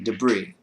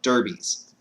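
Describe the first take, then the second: First: The r sound comes after the b. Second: The r sound comes before the b. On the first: The speaker calls it right. "the word was supposed to be debris" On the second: The speaker calls it wrong. "the word came out derbies"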